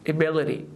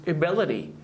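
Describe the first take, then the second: Both takes have the same delivery.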